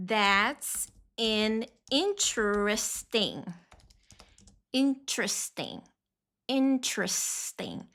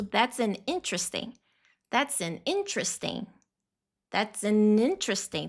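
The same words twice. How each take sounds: First: Slow, deliberate model phrase. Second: Quicker, run-together phrase; faster take. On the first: Teacher modeling the phrase slowly for class. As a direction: draw out each syllable. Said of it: "você vai ouvir ele falando assim". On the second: Teacher showing the fast version from the video. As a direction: say it at natural speed. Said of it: "Aí ele vai falar rápido". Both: Shown as a demonstration.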